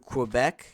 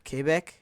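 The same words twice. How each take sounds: First: It is said with an English pronunciation. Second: It is said with a French pronunciation.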